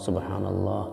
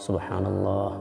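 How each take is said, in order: The two takes are said the same way.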